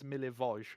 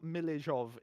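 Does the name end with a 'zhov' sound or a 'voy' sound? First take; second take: voy; zhov. First: The name ends with a 'voy' sound. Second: The name ends with a 'zhov' sound. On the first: The speaker calls it right. "it's Milivoj" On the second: The speaker calls it wrong. "it's not Milizhov"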